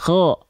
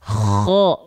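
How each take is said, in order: First: It has only a light, gentle snoring rasp. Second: It has a very strong, heavy snoring rasp. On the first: The speaker calls it right. "Jadi jangan terlalu berlebihan" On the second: The speaker calls it wrong. "ngoroknya lekoh banget. Lekoh itu apa ya? Kuat banget"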